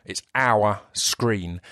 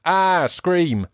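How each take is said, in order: First: "Our Screen" said slowly, the two words cleanly apart; "Our Screen" spelled out clearly, word by word; slow careful correction. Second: "Ah, Scream" said so Our Screen sounds like scream; "Scream" said with a raised, bright Essex vowel; Essex accent mishearing. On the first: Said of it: "but I'm not". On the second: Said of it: "I know my Essex accent makes it". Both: Shown as a demonstration.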